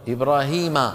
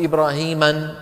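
First: The name ends without an added n sound. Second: The name ends with an added n sound. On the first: The speaker calls it right. "التنوين لا يأتي" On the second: The speaker calls it wrong. "مو"

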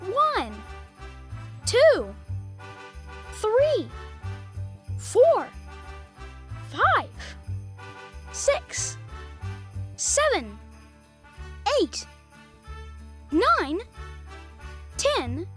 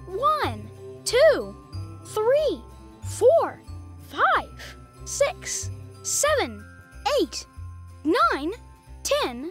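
First: The numbers are counted at a slow pace. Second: The numbers are counted at a very fast pace.

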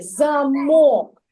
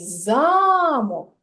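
First: The stress is on the second syllable. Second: The stress is on the first syllable. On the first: "у слові замок наголошений склад другий" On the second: "а у слові замок наголошений перший склад"

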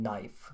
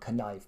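First: No K sound is heard at the start. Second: A K sound is heard at the start. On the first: The speaker calls it right. "don't say the K" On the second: The speaker calls it wrong. "Finns often say knee or knife"

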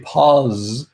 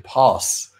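First: The word is said with a Z sound. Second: The word is said with an S sound. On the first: "in my variant of English, which is UK, Southern English... I say parse with a Z sound" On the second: "in American English, apparently people say pass with an S sound"

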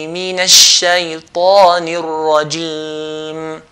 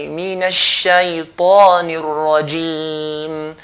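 The two takes are said the same way.

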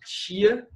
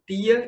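First: The T is affricated, like 'tchi'. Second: The T is a plain, dry stop. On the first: The speaker calls it wrong. "que é aquele mais paulista" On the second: The speaker calls it right. "tipo o T nordestino"

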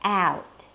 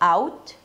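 First: The vowel starts with a front 'a' as in 'cat'. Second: The vowel starts with a back 'ah'-like sound. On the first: This sounds closer to American speakers. The speaker calls it right. "bring your tongue forward to the A sound" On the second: This is how many non-native speakers say it. The speaker calls it wrong. "So it's not out"

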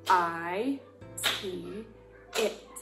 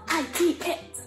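First: It is spelled out slowly. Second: It is spelled out very fast.

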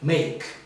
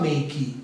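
First: It ends cleanly on the final consonant. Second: An extra vowel follows the final consonant. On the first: The speaker calls it right. "é make" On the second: The speaker calls it wrong. "Você não fala make"

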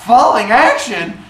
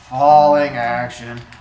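First: The voice rises, bright and excited. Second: The voice falls, low and unenthusiastic. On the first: The speaker calls it wrong. "This is not an up inflection thing" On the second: The speaker calls it right. "This is a down inflection thing"

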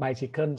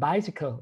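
First: It is said with Thai sounds and rhythm. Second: It is said English-style, stressing the first syllable. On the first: The speaker calls it wrong. "ถ้าเป็นธรรมดาเราจะออกเสียงไบซิเคิลใช่ไหม" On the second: The speaker calls it right. "สเตทเสียงที่พยางค์แรกนั่นเอง"

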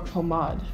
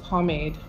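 First: The word is said in a fancy, French-like way. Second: The word is said in a plain English way.

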